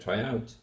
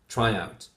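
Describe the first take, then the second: First: The stress is on the second word. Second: The stress is on the first word. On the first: The speaker calls it wrong. "We put the stress on the second word" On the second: The speaker calls it right. "stress on the first word of the compound"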